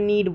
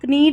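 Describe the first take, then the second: First: It starts with the N, K is silent. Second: A K sound is heard before the N. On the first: The speaker calls it right. "नीड बोल रहे हैं" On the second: The speaker calls it wrong. "नीड नहीं बोल रहे हैं"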